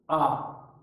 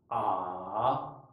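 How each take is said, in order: First: The pitch falls sharply. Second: The pitch stays low and subdued. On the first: "第四声はですね、急激にぐっと下がる。" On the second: "第三声は起伏を抑える。"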